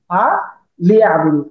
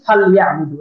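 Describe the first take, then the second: First: The l carries an i vowel: fa li. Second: The l has no vowel: fal. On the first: This is the word's underlying form. "এখন শব্দটা মূলত ফা লিয়া আবুদু" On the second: This is how it is actually recited, for ease. "অথচ আমরা পড়ি ফা লিয়া আবুদু, লামে সাকিন"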